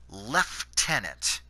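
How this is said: It is pronounced in a Canadian style. "us Canadians pronounce it lieutenant"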